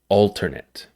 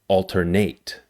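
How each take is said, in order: First: The stress is on the first syllable. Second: The stress is on the last syllable. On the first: It is used as a noun or adjective. "The stress is on the first syllable" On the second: It is used as a verb. "The stress is on the last syllable"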